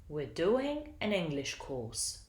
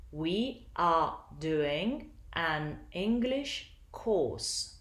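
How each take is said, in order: First: "We're doing an English course" stressed only on "do", "Eng" and "course"; connected "We're doing an English course", small words reduced; three stressed syllables. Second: "We are doing an English course" slowly, piece by piece; slow, separated "We are doing an English course"; syllable by syllable. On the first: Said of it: "only three syllables are stressed". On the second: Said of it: "These are the syllables". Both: Shown as a demonstration.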